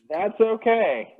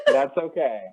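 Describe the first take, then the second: First: Slow, laughing reassurance. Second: Said in the usual way. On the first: Real, not acted. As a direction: chuckle it out slowly. Reassuring co-host while laughing.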